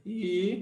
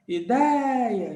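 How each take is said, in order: First: "Ideia" as I, DEI, A with long pauses; separando sílabas. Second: "ideia" with DEI raised and held long; sílaba forte esticada. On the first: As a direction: dictate "Ideia" one drawn-out syllable at a time. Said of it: "vamos separar a ideia". ("Ideia" bem pausado, sílaba por sílaba) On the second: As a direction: hit and stretch the DEI in "ideia". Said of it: "Quais são as sílabas fortes?". ("ideia" puxando forte o DEI) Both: Shown as a demonstration.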